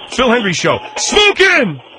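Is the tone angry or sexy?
angry. It is said in an angry tone.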